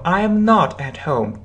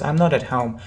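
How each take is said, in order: First: I and am are said as separate words. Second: I and am are joined into one syllable. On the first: "Full form" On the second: "Two words"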